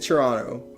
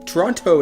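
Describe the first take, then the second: First: The T before the final vowel is silent. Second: The T before the final vowel is clearly pronounced. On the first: The speaker calls it right. "it is silent. It is Toronto" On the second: The speaker calls it wrong. "Toronto is wrong"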